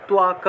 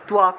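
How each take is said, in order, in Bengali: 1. প্রথম ব্যঞ্জনের পরে w-এর মতো একটা উচ্চারণ আছে। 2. প্রথম ব্যঞ্জনের পরে w-এর মতো একটা উচ্চারণ আছে।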